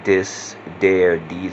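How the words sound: The th sounds become d sounds.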